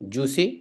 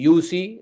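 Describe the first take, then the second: First: The phrase begins with a j sound. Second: The phrase begins with a y sound.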